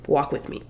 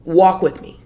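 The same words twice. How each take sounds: First: Whispered walk with me. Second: Said in the usual way. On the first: Shown as a demonstration.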